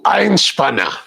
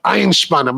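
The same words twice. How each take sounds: First: Einspanner with a plain English s, eyn-spanner; anglicized pronunciation. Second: Einspanner with German shp sound; German pronunciation. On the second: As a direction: say Einspanner the German way, eyn-shpanner. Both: Shown as a demonstration. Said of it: "Why are you saying it like that?".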